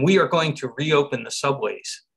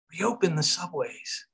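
First: Said in the usual way. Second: Slow, softer and higher; hushed echo. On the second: Real, not acted. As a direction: echo it softly and slowly, taking it in. Awed echo of the mayor's announcement.

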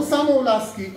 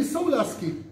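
First: Samo-lasky with the extra vowel sounded; wrong vowels. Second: So-lasky without the middle vowel, higher pitched; vowel left out. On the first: Teacher corrects students' reading of samo-lasky, wrong vowels. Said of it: "no samo-lasky". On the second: Teacher insists it is only so-lasky, vowel left out. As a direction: drop the extra vowel, just so-lasky. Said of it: "Only so-lasky". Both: Shown as a demonstration.

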